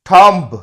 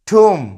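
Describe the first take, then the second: First: The final b sound is pronounced. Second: The final b sound is silent. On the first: The speaker calls it wrong. "এটা কিন্তু ভুল উচ্চারণ। এই লাস্টের বিটা উচ্চারণ হবে না।" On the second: The speaker calls it right. "এর শুদ্ধ উচ্চারণ হবে ঠুম।"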